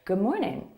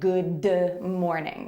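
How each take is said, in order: First: The D sound is held back, not released. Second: The D sound is fully released. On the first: The speaker calls it right. "We say good morning" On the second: The speaker calls it wrong. "We don't really say good morning"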